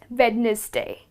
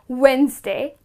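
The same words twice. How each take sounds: First: The word is sounded out as spelled. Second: The first syllable sounds like 'when'. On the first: The speaker calls it wrong. "and not" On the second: The speaker calls it right. "that's how it's pronounced"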